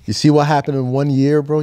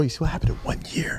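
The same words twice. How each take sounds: First: Said in the usual way. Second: Hushed unvoiced whisper, a bit fast. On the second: Real, not acted. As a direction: whisper it like sharing a secret. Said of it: "Why are you whispering?".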